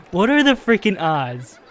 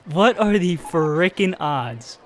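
First: Laughing through the words in disbelief; amused, half-laughing exasperation. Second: Slow, drawn-out repeat, stunned; slow, dragged-out stunned repeat; slow disbelief. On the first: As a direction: let a laugh spill into the question. Laughing at the repeat failure. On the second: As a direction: stretch every word, shaking your head. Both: Real, not acted.

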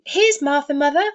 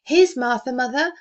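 First: Put-on high, loud children's cry; excited children's cry. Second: Put-on higher, louder girl announcing Martha; girl's announcement. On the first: Young Cratchits shouting to their mother, thrilled. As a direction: cry it out like delighted little kids. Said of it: "cried the two young Cratchits". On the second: Girl telling her mother that Martha has arrived, eagerly. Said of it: "said a girl". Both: A narrator's reading.

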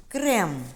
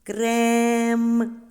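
First: Said in the usual way. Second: "Крем" with a long, loud, held е; slow sounding-out of "Крем", vowel sustained; drawn-out vowel. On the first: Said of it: "що зображено". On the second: Shown as a demonstration. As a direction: stretch the е in "Крем" on one level note. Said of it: "Промовимо слово".

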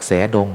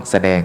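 First: แสดง misread as "sae-dong". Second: แสดง as "sa-daeng"; correct reading of แสดง. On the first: Monk joking about his old misreading, แสดง said as "sae-dong". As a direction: split แสดง wrongly into sae plus dong. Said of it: "ไม่ใช่นะ ต้องแสดง". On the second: Monk correcting himself for listeners, แสดง said as "sa-daeng". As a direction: read แสดง correctly, short sa then daeng. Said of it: "ต้องแสดง". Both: Shown as a demonstration.

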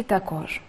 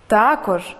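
First: Також with the stress on кож, softer; також pronounced ta-KOZH; stress on last syllable. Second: Також with the stress on Та; Також pronounced TA-kozh; stress on first syllable. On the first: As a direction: put the weight on the final syllable of також. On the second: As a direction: hit the opening syllable of Також. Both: Shown as a demonstration. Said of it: "Слова із подвійним наголосом".

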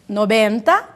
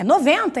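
First: Spanish model word, v pronounced as b; Spanish noventa. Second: "noventa" with a v sound and nasal en; Portuguese version, nasalised middle syllable. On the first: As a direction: say "Noventa" as nobenta. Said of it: "Noventa é noventa em português". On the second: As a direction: say "noventa" the Brazilian way, with a true v. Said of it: "noventa em português". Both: Shown as a demonstration.

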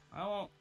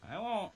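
The two takes are said the same way.

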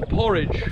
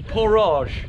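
First: Said in the usual way. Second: "porridge" said as "por-AHZH"; higher, playful "porridge", stressed on a long final "ahzh"; mock-French porridge. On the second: Shown as a demonstration. Jokey mock-French repeat of word.

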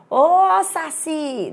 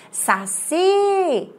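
First: "Ô" shouted high and long, falling into "saci"; calling at the gate. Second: "Saci" with CI sung out high and long; calling at the gate. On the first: Teacher showing the wrong way to call saci, hollering the opening "Ô". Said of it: "você vai falar assim". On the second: Teacher demonstrating the tonic syllable, calling "Saci" with a high, held CI. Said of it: "Você vai falar somente a palavra saci". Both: Shown as a demonstration.

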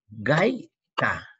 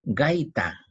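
First: "Gaita" in two beats, gai, ta; "Gaita" drawn out as gai - ta; syllable separation. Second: Said in the usual way. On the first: Shown as a demonstration. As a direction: split "Gaita" with a long gap before ta. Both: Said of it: "separa en sílaba".

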